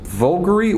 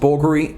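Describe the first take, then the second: First: The name begins with a V sound. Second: The name begins with a B sound. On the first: "is it Vulgari or Bulgari?" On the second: "So it's pronounced Bulgari"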